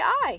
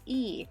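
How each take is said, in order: First: The vowel glides like 'eye'. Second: The vowel is a single 'ee' sound. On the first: The speaker calls it wrong. "If I were to look at the romanization, I'd probably say I" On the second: The speaker calls it right. "you literally pronounce it E"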